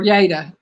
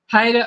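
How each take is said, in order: First: The name begins with a Y sound. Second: The name begins with an H sound. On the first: "Sometimes he'll pronounce it as a Y" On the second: "he would pronounce it as an H"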